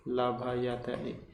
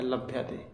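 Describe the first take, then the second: First: लभयते drawn out very slowly, each syllable apart. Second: Said in the usual way. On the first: Shown as a demonstration. Teacher breaking लभयते into syllables for students, very slow. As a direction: spell out लभयते for the class, la-bha-ya-te. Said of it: "लभ्यते, then spelled slowly". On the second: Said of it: "लभयते, spelled out slowly".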